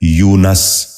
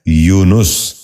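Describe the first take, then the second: First: یونس said as "yoo-nas", short a after n; mispronounced. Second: یونس said as "yoo-nus", short u after n; correct pronunciation. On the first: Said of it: "یہ غلط تلفظ ہے". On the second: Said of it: "درست تلفظ ہے". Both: Shown as a demonstration.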